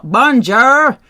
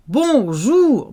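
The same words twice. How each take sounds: First: BONJOUR as "ban-jar", hard J, no nasal; loud anglicised BONJOUR, said "ban-jar"; wrong English-style bonjour. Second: Higher, lilting French BONJOUR, "bon-zhoor"; correct French bonjour. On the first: Teacher mocking the learner's mistake, mangled English bonjour. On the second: Teacher modelling the greeting correctly, French bonjour. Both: Shown as a demonstration. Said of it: "Not bonjour".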